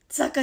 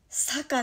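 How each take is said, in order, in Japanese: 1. この単語は有声の z の音で始まる。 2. この単語は無声の s の音で始まる。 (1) "坂じゃないよ" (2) "点々ついてない"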